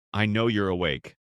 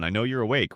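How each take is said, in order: First: A firm, slightly louder push on the words; pressing louder. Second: Said in the usual way. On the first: A narrator's reading. Husband confronting his wife in bed, pressing a little louder. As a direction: press the point, mildly insistent. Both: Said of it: "I pressed louder this time".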